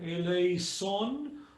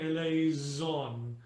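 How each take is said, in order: First: The S is hissed without voice. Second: The S is buzzed with voice, like a Z. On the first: "unvoiced as in" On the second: "voiced as in"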